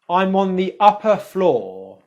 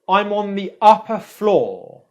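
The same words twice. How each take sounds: No difference in how they are said.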